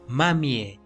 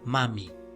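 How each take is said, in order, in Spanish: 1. Se pronuncia una vocal final extra. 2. No se pronuncia ninguna vocal final extra. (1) "no le vamos a pronunciar" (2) "sino solo"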